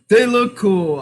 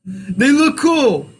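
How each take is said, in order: First: Faster, stress on they; "They look cool" at normal pace with weight on They; quick repeat. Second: Slow, drawn-out, stress on look; slow grudging compliment. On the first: Host repeating his forced compliment, stressing they. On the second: Host asked to praise the team, slow and reluctant. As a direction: stretch "They look cool" out slowly, hitting look. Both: Shown as a demonstration. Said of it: "Can you say something nice about the Union".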